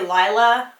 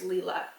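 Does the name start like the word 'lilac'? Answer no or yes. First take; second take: yes; no. First: It starts like the word lilac. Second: It does not start like lilac. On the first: The speaker calls it wrong. "I keep wanting to say Lila, like lilac" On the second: The speaker calls it right. "I'm pretty sure it's Lila"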